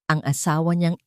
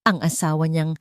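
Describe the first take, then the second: No difference in how they are said.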